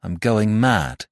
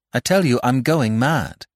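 First: Slow, weighted confession falling at the end; dramatic announcement. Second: Higher, more forceful insistence; insistent repetition. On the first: Jack revealing his madness to the doctor, slow and dramatic. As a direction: draw it out for dramatic effect. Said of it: "He stopped dramatically". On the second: Jack repeating himself to an unmoved doctor, pitched up and insistent. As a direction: push it harder to get a reaction. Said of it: "he repeated it". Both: Acted.

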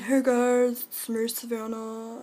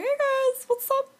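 First: Said in the usual way. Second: Much higher cartoonish voice; a high, squeaky "Hey guys"; squeaky silly voice. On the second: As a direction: pitch way up like a goofy friend. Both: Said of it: "I have that voice".

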